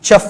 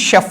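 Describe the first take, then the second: First: The word begins with a ch sound. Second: The word begins with an sh sound. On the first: The speaker calls it wrong. "దీన్ని చెఫ్ అని పలకూడదండి" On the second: The speaker calls it right. "షెఫ్ అని పలకాలి"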